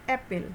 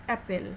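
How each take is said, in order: The two takes are said the same way.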